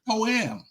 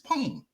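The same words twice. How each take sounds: First: The word is split into two syllables. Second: The word is said as one syllable. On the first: The speaker calls it wrong. "Y'all dissecting the word. Y'all making a two-word syllable" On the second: The speaker calls it right. "It's a one word... This one syllable word"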